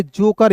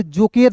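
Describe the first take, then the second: First: जोकर ending in "-kar"; correct silent-e reading. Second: जोकेर ending in "-ker"; wrong sounded-e reading. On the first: Teacher giving learners the correct reading, जोकर with "-kar". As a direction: say जोकर with the e unsounded. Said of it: "इसे हम लोग पढ़ेंगे जोकर". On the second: Teacher warning learners off a misreading, जोकेर with "-ker". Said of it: "इसे जोकेर नहीं पढ़ेंगे". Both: Shown as a demonstration.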